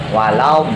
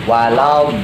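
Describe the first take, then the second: Both takes have the same delivery.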